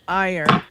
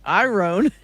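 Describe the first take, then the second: First: It is said as 'eye-ern', with r after vowel. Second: It is said as 'eye-ron', following the spelling. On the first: This is how people usually say it. The speaker calls it wrong. "We pronounce it like I space E R N" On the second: This is how it is spelled. The speaker calls it right. "it should be iron iron because it's I R O N"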